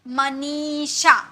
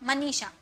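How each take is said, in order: First: The vowel in 'ni' is drawn out long. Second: The vowel in 'ni' is kept short. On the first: The name would be spelled with a double E. "अगर आप ऐसे बोलते मनीषा, नी को अगर आप long में sound निकालते" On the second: The name is spelled with a single I. "Normally मनीषा मनीषा, नी को ज्यादा लंबा टान के नहीं बोल रहे"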